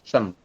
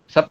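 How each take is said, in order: First: The syllable ends with an m sound. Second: The syllable ends with a p sound. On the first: This is how it is actually read aloud. "tapi kita bacanya adalah sem" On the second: This is how the letters are written. "Itu kan tulisannya sep ya"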